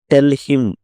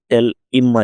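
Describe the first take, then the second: First: Said in the usual way. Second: "Tell him" with the H of "him" dropped. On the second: Shown as a demonstration. Teacher shows learners elision, "Tell him" said without H. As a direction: run "Tell him" together as "tell-im". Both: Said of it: "హెచ్ ఎగరేస్తారు".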